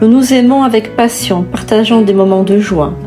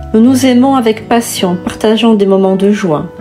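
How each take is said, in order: No difference in how they are said.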